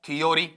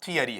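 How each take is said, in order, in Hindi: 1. बीच में 'yo' वाले तीन अक्षर हैं। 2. बीच में 'ya' वाले तीन अक्षर हैं। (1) "या फिर हम ऐसा पढ़ देते हैं" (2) "जो रियल साउंड मेरे पास में आता है"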